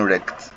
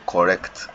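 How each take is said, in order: First: The first syllable of the word is dropped. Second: Both syllables of the word are pronounced. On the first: The speaker calls it wrong. "I'm saying rect because I'm not pronouncing it well" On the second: The speaker calls it right. "I'm supposed to say correct"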